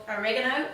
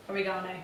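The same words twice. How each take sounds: First: "oregano" as o-REG-a-no; second-syllable stress. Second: "oregano" as o-ri-GAH-no; third-syllable stress. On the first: Trying out two ways of saying it. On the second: Alternative pronunciation offered after "or. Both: Shown as a demonstration.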